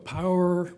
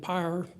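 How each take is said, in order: First: The vowel is a full two-part 'ow-er' sound. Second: The vowel is flattened toward a single 'ah' sound. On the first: "I had to say" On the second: "rather than"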